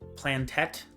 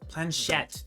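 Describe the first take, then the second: First: The word is said with a 't' sound. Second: The word is said with a 'sh' sound. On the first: The speaker calls it wrong. "I was saying it plantette" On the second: The speaker calls it right. "That's how you pronounce it"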